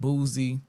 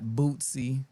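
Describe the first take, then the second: First: The middle consonant is a buzzing z sound. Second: The middle consonant is a ts sound. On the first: "not Boozy" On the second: "not Bootsy"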